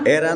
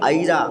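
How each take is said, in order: First: The first vowel is a plain 'e' sound. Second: The first vowel is an 'ai' sound. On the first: The speaker calls it wrong. "ऐरा नहीं" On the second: The speaker calls it right. "ये ऐनक का है, ये एड़ी का नहीं है"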